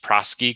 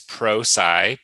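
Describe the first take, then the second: First: The second syllable sounds like 'sky'. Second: The second syllable sounds like 'sigh'. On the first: The speaker calls it wrong. "It gets pronounced Prosky quite a bit" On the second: The speaker calls it right. "it's actually a contraction of professional and science"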